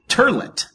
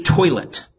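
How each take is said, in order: First: Toilet said as "turlet"; mock family pronunciation, toilet as "TUR-let"; mispronounced with added R. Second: Toilet with an OY vowel and no R; toilet, first syllable rhyming with boy; standard pronunciation. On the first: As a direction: say toilet with an ER in place of OY. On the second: Shown as a demonstration. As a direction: say toilet as "TOY-let". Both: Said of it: "they added an R".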